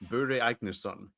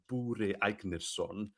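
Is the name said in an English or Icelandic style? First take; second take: English; Icelandic. First: The name is said with plain English sounds. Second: The name is said with exaggerated Icelandic sounds.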